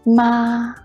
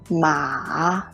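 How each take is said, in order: First: The pitch stays high and level. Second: The pitch starts low and then rises. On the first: "The first tongue is a high-level tongue" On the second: "The third tongue is a low rising tongue"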